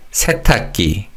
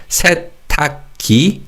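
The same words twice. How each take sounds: First: "세탁기" run together, with the final 기 tensed to 끼; "세탁기" joined up, the ㄱ carried over into a tense ㄲ. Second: "세탁기" split into three separate syllables, ending on a plain, rising "ki"; "세탁기" as se... tak... ki, each syllable apart; untensed final syllable. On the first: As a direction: say "세탁기" as one word, se-tak-kki. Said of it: "pronounced as a 쌍기역". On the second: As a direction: say "세탁기" syllable by syllable, without tensing the last consonant. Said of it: "So it's not". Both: Shown as a demonstration.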